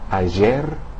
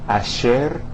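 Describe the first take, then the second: First: The middle consonant sounds like s in pleasure. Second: The middle consonant sounds like English sh. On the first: "the S in the English word like pleasure" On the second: "the S H sound uh, of the English word cashier"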